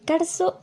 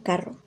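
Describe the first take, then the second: First: The rr is a buzzing, hissing sound. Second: The rr is a plain rolled trill. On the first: This is the Andean pronunciation. "tendencia a pronunciar la R inicial y T R como algo parecido a" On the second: This is the usual pronunciation. "en lugar de"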